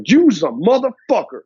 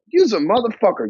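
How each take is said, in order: First: Hard, punched accusation with big pitch swings; confrontational tone. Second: Playful, loosely swung delivery; friendly tone. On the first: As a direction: punch "motherfucker" like a real insult. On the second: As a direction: say "Use a motherfucker" as a friendly jab. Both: Shown as a demonstration. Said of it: "See the difference? That's tonality".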